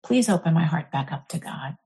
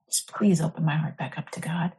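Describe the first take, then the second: First: Said in the usual way. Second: A hushed, breathy whisper of the prayer, under her breath; whispered plea. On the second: Retold or imitated. Retelling her prayer to the saint, she whispers the plea. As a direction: whisper the plea as if only God should hear.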